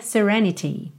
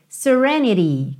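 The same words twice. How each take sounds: First: "serenity" with a clear t, sereni-tee; full T. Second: Slow "serenity" as "sereni-dee"; tapped T. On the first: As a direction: sound the t of "serenity" fully. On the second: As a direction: flap the t of "serenity" like a quick tap. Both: Shown as a demonstration. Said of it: "que também poderia ser serenity".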